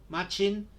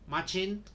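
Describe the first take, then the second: Both takes have the same delivery.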